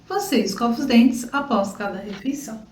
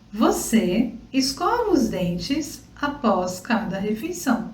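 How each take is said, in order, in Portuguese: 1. A frase é falada rapidamente, em fala rápida. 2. A frase é falada em ritmo normal, com calma.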